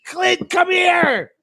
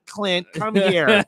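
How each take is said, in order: First: High, slow shrieked mom call; imitating mom shouting. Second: Slow, laughing, lightly voiced mother; half-laughing redo of the mom call; lighter mom imitation. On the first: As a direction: yell for him like a shocked mother. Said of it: "that's my mom impression". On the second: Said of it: "Oh my God".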